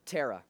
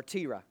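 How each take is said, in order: First: Terah, first syllable rhyming with air; Terah as TERR-uh. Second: Terah, first syllable sounding like tee; Terah as TEE-ruh. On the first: Preacher names Abram's father to the congregation, Terah said TERR-uh. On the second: Preacher offers another way to say it, Terah said TEE-ruh. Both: Shown as a demonstration. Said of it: "however you want to pronounce it".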